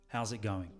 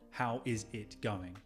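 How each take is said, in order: First: The words are blended together quickly. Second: Every word is said fully and separately. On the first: The speaker calls it right. "Kind of blending those words together" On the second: The speaker calls it wrong. "I don't enunciate every word. It's not"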